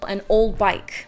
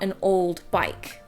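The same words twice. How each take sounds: First: The D between the consonants is dropped. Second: The D between the consonants is pronounced. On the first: "a T or a D in between two consonants also gets removed" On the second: "not an old bike"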